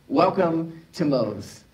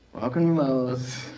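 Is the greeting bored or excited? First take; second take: excited; bored. First: The greeting sounds warm and excited. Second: The greeting sounds bored and unenthusiastic.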